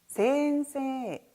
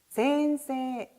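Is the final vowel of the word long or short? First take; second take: long; long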